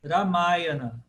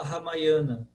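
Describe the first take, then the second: First: Ramayana slowly, long stressed MA; rolled R, then weight on MA in Ramayana; correct stress on MA. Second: Ramayana stressed on YA; Brazilian penultimate stress. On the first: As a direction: say Ramayana as ra-MAA-ya-na. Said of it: "Mas o correto". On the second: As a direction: say Ramayana as ha-mai-YA-na. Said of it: "Aqui no Brasil a gente fala". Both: Shown as a demonstration.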